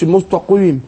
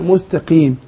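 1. يُنطق حرف القاف مفخّمًا تفخيمًا شديدًا. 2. يُنطق حرف القاف مفخّمًا تفخيمًا خفيفًا فقط. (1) "ما أقولش المستقيم" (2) "لا مستقيم"

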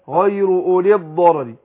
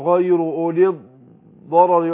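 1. الكلمة الأخيرة تنساب بدون سكت. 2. يوجد سكت قصير داخل الكلمة الأخيرة. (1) "لا،" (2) "ان انا اعمل عليها سكت اقول غير ولي الضرر واعمل كده"

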